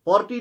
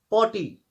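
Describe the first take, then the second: First: पॉर्टी with a clear r sounded; wrong pronunciation. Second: पॉटी said with no r, "pawty"; r silent. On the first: Teacher showing students what not to say. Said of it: "पॉर्टी नहीं है". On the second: Teacher showing students the correct sound. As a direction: drop the r, say पॉटी. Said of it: "इसमें और जो है वो silent है". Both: Shown as a demonstration.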